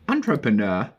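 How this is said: It is said in a British accent. "British English?"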